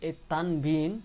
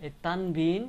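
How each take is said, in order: Both takes have the same delivery.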